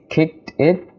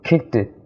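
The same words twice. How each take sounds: First: The two words are said separately. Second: The two words are linked together. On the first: The speaker calls it wrong. "you can't say kicked it" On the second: The speaker calls it right. "we'll make a linking sound"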